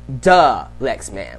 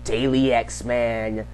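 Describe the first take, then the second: First: The first syllable is a weak duh. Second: The first syllable sounds like day. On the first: The speaker calls it right. "it's pronounced duh Lex Man" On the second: The speaker calls it wrong. "which is what um Darius said"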